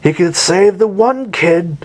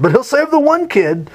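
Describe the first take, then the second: First: Said in the usual way. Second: Much higher, mocking disbelief on "the one kid"; sarcastic jab, voice shooting up; mocking the hero's choices, high and sarcastic; incredulous irony. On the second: Shown as a demonstration.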